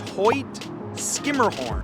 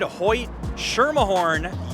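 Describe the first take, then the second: First: The second name begins with an 'sk' sound. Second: The second name begins with an 'sh' sound. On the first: The speaker calls it right. "The proper pronunciation" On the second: The speaker calls it wrong. "you would be incorrect"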